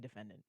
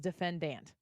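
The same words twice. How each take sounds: First: It is said with a standard, neutral pronunciation. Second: It is said with a regional Southern pronunciation. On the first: This is how the speaker wishes it were said. The speaker calls it right. "just say defendant, please" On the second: This is how someone else says it. The speaker calls it wrong. "maybe it's a locally regional thing"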